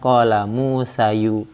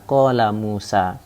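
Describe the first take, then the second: First: Musa ends with an added 'u' vowel. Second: Musa ends on a plain long 'a' sound. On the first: The speaker calls it wrong. "Jadi bukan" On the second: The speaker calls it right. "Musa ini tetap Musa"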